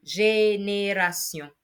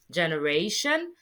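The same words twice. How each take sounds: First: "génération" slow, each é as ay; French accent aigu. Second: "generation" ending in English -shun. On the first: Teacher modelling for learners, slow French "génération" with ay vowels. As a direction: stretch "génération" syllable by syllable, ending see-on. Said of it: "Making your E sound like A". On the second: Teacher giving the English comparison, "generation" with -shun. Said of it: "But in English, in French rather". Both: Shown as a demonstration.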